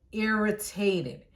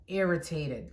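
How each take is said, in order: First: "irritated" stretched out slowly, syllable by syllable; drawn-out emphasis. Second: Said in the usual way. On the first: Real, not acted. Storyteller stressing her annoyance at boss, "irritated" drawn out. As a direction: drag out every syllable of "irritated".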